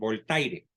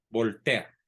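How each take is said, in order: First: The name is said with Spanish pronunciation. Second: The name is said with French pronunciation. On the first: The speaker calls it wrong. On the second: The speaker calls it right.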